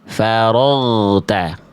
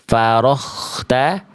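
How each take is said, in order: First: The throat consonant is voiced with no air. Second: The throat consonant has a rough breathy hiss. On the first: The speaker calls it right. "Yang ngalir huruf ghoin cuman suara aja, nggak disertai angin" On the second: The speaker calls it wrong. "bukan dibaca farokhta"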